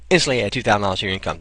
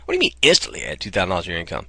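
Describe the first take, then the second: First: Fast, punchy ad-copy headline; sales headline read. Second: Fast, doubting echo of the headline; incredulous reader. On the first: Marketer showing sales copy as a fast punchy headline. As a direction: sell it like a page headline, quick. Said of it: "Here's sales copy". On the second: Visitor reacting to the headline, asking quickly in disbelief. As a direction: question it as if you can't believe it. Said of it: "That gets your attention". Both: Shown as a demonstration.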